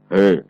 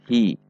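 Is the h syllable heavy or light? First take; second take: heavy; light. First: The h syllable sounds heavy and thick. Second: The h syllable sounds light and thin. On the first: The speaker calls it wrong. "yang ikut tebal" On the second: The speaker calls it right. "harus hi"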